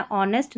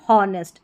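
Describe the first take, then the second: First: ऑनेस्ट opening on the vowel; silent H. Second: हॉनेस्ट with a wrongly sounded H. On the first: Teacher answering own question, ऑनेस्ट with silent H. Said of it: "इसको भी ऑनेस्ट पढ़ना है". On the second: Teacher contrasting the misreading, हॉनेस्ट with H sounded. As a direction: push out the H that starts हॉनेस्ट. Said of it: "न कि हॉनेस्ट". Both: Shown as a demonstration.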